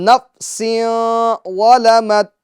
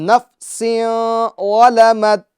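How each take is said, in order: The two takes are said the same way.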